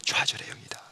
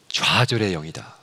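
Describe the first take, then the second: First: 좌절의 영이다 whispered without voice. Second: Said in the usual way. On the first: Shown as a demonstration. Preacher repeats the spirit's name to the congregation in a hushed whisper. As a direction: breathe 좌절의 영이다 like a secret. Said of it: "repeated as whisper". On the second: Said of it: "좌절의 영이다 (repeated whispered)".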